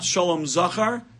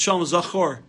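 First: The final word ends with an 'ah' vowel. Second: The final word ends with an 'oh' vowel. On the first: It refers to the male child. The speaker calls it wrong. "it's not Shalom Zachar" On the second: It means remember. The speaker calls it right. "help him remember the Torah"

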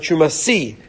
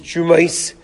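First: The word ends with an 'ee' sound. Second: The word ends with an 'ai' sound. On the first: The word refers to a single thing. "the way it's written is with the yud at the end would sound like Truma Si, singular" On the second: The word refers to more than one thing. "The way it's pronounced is Trumais"

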